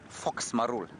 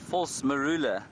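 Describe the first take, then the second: First: The phrase is clipped, with the final vowel dropped. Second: The phrase is said in full, with every syllable. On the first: The speaker calls it wrong. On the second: The speaker calls it right.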